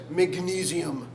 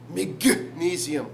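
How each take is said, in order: First: Said in the usual way. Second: Magnesium slowly split after "guh"; magnesium broken up. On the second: Shown as a demonstration. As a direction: punch the G in magnesium, then pause. Repeats it broken at the G.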